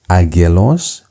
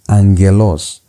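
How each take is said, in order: First: The first syllable is said with a plain g. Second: The first syllable is said with an n sound. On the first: The speaker calls it wrong. "Instead of pronouncing it as agelos" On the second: The speaker calls it right. "the pronunciation becomes angelos"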